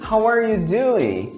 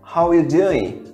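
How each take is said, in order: First: The word 'are' is pronounced in full. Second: The word 'are' is dropped and speech is fast.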